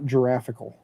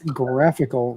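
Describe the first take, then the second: First: The word starts with a J sound. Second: The word starts with a hard G sound. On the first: The speaker calls it wrong. "not giraffical" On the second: The speaker calls it right. "It's graphical"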